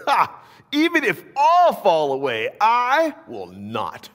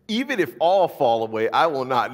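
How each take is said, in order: First: High, loud cocky boast with a scoffing ha; Peter's boast. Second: A lighter retelling of the boast, louder; Peter's boast. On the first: Peter boasting loudly to Jesus, proud and defiant. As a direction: declare it like a proud disciple who won't fail. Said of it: "Peter declared". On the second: Preacher voicing Peter's vow to Jesus, mildly raised. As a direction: say it as Peter again, less pushed. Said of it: "This is what Peter says". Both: Acted.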